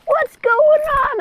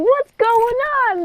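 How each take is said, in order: First: Very high, squeaky imitation of a little boy; hammed-up high child voice; mock scared kid. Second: High-pitched imitation of a bewildered mother; hammed-up high mom voice; mock alarmed mother. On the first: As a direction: play a bewildered kid in a very high voice. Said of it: "This kid's like". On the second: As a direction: play the confused mom, pitched way up. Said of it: "She's like".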